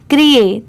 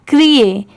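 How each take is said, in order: Both takes have the same delivery.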